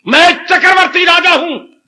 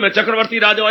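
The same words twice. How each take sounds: First: It is said with strong feeling. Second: It is said flatly, without feeling.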